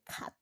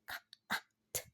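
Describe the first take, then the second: First: The sounds are blended smoothly into one word. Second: Each sound is said separately with breaks between. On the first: "to form the word cat" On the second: "put together the individual unit sounds, such as in cat"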